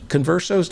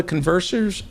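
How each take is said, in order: First: "conversos" said kon-VER-sohs, ending in -sos; correcting to "conversos", no r in the ending; corrected word. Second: "conversors" said with an extra r before the final s; "conversors", the wrong ending -sors; slip of the word. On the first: Host corrects himself to the right word, "conversos". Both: Real, not acted.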